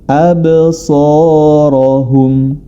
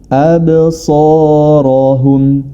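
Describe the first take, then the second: The two takes are said the same way.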